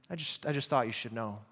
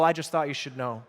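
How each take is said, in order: First: Softer, lower echo of a gossip; hushed, low, self-important concern; mock noble. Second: Said in the usual way. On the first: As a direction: say it softly, with pretend nobility. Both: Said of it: "That sounds so noble".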